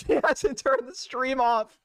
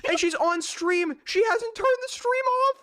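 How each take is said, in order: First: Slow, laughing through the words; cracking up at the same fact; laughing repeat. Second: High, slow, drawn-out disbelief; can't believe what he's seeing; amazed disbelief. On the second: Disbelief at her stream. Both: Real, not acted.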